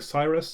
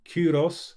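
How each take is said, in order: First: The name begins with an S sound. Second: The name begins with a K sound. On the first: This is the usual English form. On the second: This is the original form with a K.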